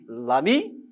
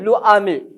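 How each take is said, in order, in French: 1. La voyelle de l'article tombe et se lie à ami. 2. L'article garde sa voyelle devant ami. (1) "je vais dire ami, l'ami" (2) "Je ne vais pas dire le ami"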